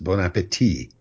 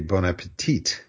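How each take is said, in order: First: The ending is said the French way. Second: The ending sounds like English 'petite'. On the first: It wishes someone a good appetite. The speaker calls it right. "pronounced bon appétit" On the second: It sounds like wishing someone something good for smallness. The speaker calls it wrong. "a lot of waiters don't know any better, and they say bon appétit"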